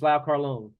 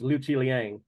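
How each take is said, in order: First: The name is read with its Cantonese pronunciation. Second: The name is read with its Mandarin pronunciation. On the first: "in Cantonese it's" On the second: "and the Mandarin"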